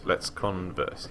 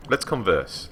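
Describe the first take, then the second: First: Slow, stretched let's converse; choosing to chat, slowly and teasingly; drawn-out repeat. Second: Said in the usual way. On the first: Shown as a demonstration. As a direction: drag it out for fun. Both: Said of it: "repeats slowly".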